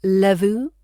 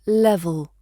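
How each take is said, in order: First: Levu with the final l turned into an oo sound; wrong vowel. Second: Level with both e vowels identical and a clear final l; correct RP. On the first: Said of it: "Avoid turning level into levu". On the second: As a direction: say Level evenly, same vowel twice. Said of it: "R P wants both vowels identical". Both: Shown as a demonstration.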